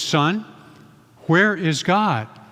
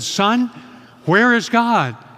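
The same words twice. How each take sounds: First: It is said with a raised, louder voice. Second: It is said louder still, nearly shouting.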